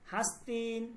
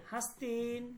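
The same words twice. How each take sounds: The two takes are said the same way.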